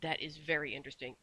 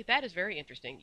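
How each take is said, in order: First: Understated, dangerous restraint; mildly menacing, held in; soft, fierce menace. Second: Loud, cheerful approval; bright. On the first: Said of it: "in a soft, fierce, terrifying voice". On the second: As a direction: show lively, pleased interest. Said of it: "said Missus Corey brightly". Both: A narrator's reading.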